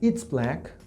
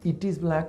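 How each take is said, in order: First: One contracted syllable, it's. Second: Two separate words, it and is. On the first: "voy a decir" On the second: "en vez de decir"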